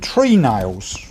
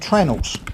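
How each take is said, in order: First: It is said fully as two clear words. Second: It is said clipped as one short word. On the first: The speaker calls it right. "the shipbuilders call them tree nails" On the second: The speaker calls it wrong. "we don't pronounce that properly, we call them trennels"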